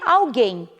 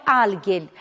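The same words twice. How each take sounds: First: Alguém stressed on GUÉM; Portuguese pronunciation. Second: Alguien stressed on AL; Spanish pronunciation. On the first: Teacher giving the Portuguese word, final-syllable stress. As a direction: land the stress on the end of alguém. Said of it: "Em português seria". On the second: Teacher giving the Spanish word, first-syllable stress. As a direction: hit AL in alguien. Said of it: "Em espanhol é". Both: Shown as a demonstration.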